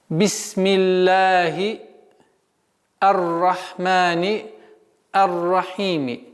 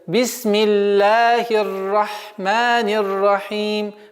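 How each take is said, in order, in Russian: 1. Последнее слово оканчивается на краткий гласный i. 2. Последнее слово оканчивается на m, гласный опускается.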